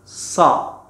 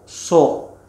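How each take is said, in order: First: The syllable sounds light and thin. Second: The syllable sounds heavy and rounded. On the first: The speaker calls it right. "Ujung lidahnya diturunkan ke gigi seri bawah" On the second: The speaker calls it wrong. "Tidak boleh so"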